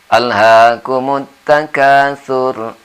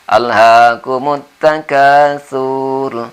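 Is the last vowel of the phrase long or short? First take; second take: short; long. First: The final syllable 'sur' is kept short. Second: The final syllable 'sur' is drawn out long. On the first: The speaker calls it right. "Jadi kita baca pendek saja" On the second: The speaker calls it wrong. "sering kedengaran sur ini dibaca panjang ... di sini tidak boleh"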